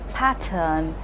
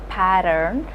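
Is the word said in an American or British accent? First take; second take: British; American. First: The T is crisp and the R is silent. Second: The T is softened and the R is sounded. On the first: "they would stress on the T and not pronounce the R" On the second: "where the T is also rolled and the R is also rolled"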